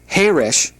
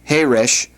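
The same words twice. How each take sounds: First: The stress falls on the first syllable. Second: The stress falls on the last syllable. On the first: It means quiet. "with the accent on the first syllable means quiet" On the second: It means deaf. "with the accent on the last syllable means deaf"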